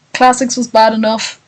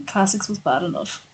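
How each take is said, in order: First: Said in the usual way. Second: Much softer, trailing repeat; quiet aside. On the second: Real, not acted. Streamer repeating a complaint to themselves, hushed aside. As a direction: say it under your breath, as if to yourself.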